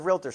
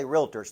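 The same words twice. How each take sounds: First: Said in the usual way. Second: Realtors said as real-a-tors, three full syllables. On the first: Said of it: "we say realtors, three syllables, not two". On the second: Shown as a demonstration. Teaching the Tennessee crowd, realtors as real-a-tors. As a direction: spell out realtors as real-a-tors, not two beats. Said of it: "three syllables, not two".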